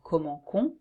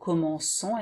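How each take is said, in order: First: The c is pronounced as a k. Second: The c is pronounced as an s. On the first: The speaker calls it wrong. "instead of" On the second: The speaker calls it right. "to have this pronunciation of"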